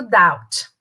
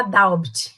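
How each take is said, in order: First: "doubt" said as "dowt", no B sound; silent B in doubt. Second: "doubt" with an audible B, "dowbt"; B wrongly pronounced. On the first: Teacher modelling the word for students, "doubt" with silent B. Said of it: "pronúncia do doubt". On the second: Teacher showing what we don't say, "doubt" with a sounded B. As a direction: sound the B in "doubt" as a learner's mistake. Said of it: "Esse B é mudo". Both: Shown as a demonstration.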